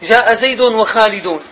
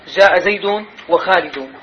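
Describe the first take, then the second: First: Said in the usual way. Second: جاء زيد وخالد said slowly; deliberate slow جاء زيد وخالد; slower example. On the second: Shown as a demonstration. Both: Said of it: "ضم يعني اشتراك ونسق".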